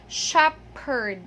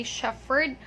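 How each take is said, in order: First: "shepherd" slowly, as SHEP-perd; correct P pronunciation. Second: "shepherd" with F, as SHEF-ferd; wrong F pronunciation. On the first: Teacher showing what we only say, P pronunciation. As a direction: sound only the P in "shepherd", drawn out. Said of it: "We only say shepherd". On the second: Teacher showing what we don't say, F mispronunciation. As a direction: say "shepherd" as "shefferd". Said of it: "We don't say shepherd". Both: Shown as a demonstration.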